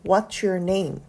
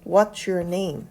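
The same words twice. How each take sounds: No difference in how they are said.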